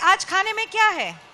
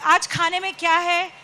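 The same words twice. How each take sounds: First: It is said in a cheerful mood. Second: It is said in a grumpy mood.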